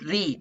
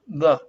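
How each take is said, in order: First: The vowel is a long 'ee' sound. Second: The vowel is a short, weak 'uh' sound. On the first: The speaker calls it right. "it's pronounced like E" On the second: The speaker calls it wrong. "not like the"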